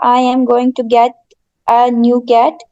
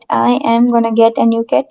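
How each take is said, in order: First: 'Going to' is said as two full words. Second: 'Going to' is shortened to 'gonna'. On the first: This is the form used in writing. The speaker calls it right. "इसका full open करके" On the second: This is casual spoken slang. The speaker calls it wrong. "बोलने वाली और slang language में हम use करते हैं"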